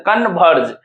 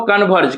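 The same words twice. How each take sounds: First: कन्वर्ज in two parts, short con and long verge; split into syllables. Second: Said in the usual way. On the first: Shown as a demonstration. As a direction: break कन्वर्ज after con. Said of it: "दो part में तोड़ते हैं कन्वर्ज". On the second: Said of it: "दो part में तोड़ते हैं".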